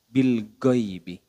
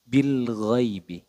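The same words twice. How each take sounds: First: It starts with a hard, stopped 'g' sound. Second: It starts with a throaty, flowing 'gh' sound. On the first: The speaker calls it wrong. "kesalahan yang sering terjadi adalah bil ghaibi. Go, go, go. ... Itu kurang tepat" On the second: The speaker calls it right. "di sini bil ghaibi"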